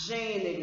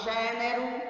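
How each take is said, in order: First: "Gênero" with a closed ê in "gê"; closed vowel. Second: "gênero" with an open é, like "gé-nero"; wrong open vowel. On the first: Teacher showing the correct sound, "Gênero" with closed ê. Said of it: "som fechado". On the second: Teacher showing what we don't say, "gênero" with open é. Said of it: "Nós não falamos". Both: Shown as a demonstration.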